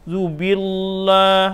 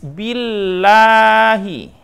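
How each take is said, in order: First: The vowel is said thick and heavy. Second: The vowel is said thin and light. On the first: The speaker calls it wrong. "agak tebal seperti orang berpuitisasi ya" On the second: The speaker calls it right. "betul-betul tipis"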